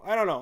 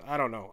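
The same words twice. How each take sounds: First: I don't know thrown out higher and louder; louder repeat. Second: Said in the usual way. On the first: Real, not acted. Streamer shrugging at chat, louder. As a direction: toss it off louder.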